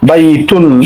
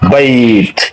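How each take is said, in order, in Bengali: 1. শব্দটি শেষ হয় একটি চূড়ান্ত -un ধ্বনি দিয়ে। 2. শব্দটি শেষ হয় একটি স্বরহীন ব্যঞ্জনে। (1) "তখন বাইতুন বলে থামবো না" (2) "এখানে আমরা থামবো বাইত বলে"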